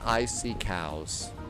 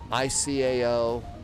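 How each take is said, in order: First: The term is said like the words icy cows. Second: Each letter of the term is said separately. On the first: The speaker calls it wrong. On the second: The speaker calls it right.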